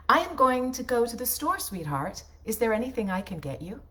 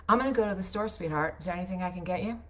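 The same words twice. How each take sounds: First: Stiff, overly perfect diction, every word crisp; Stepford wife read. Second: Loose and quick, words run together; sloppy natural diction. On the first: Voice actor to her husband, a stiff Stepford wife read. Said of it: "That sounds like a Stepford wife". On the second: Wife to her husband, casual sloppy everyday read. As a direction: toss it off like real talk at home. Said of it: "Here's how I would say it instead". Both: Shown as a demonstration.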